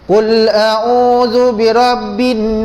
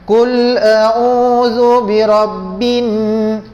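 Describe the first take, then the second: First: The final nasal n is cut short. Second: The final nasal n is held for two counts. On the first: The speaker calls it wrong. "Kalau kita letak pendek" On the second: The speaker calls it right. "boleh kira dua"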